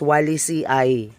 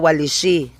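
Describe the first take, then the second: First: The name ends in "ee" followed by "eye". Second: The name ends in a single "ee" sound. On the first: The speaker calls it right. "ang pag-pronounce is Walisi-ay" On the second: The speaker calls it wrong. "hindi po siya Walisi"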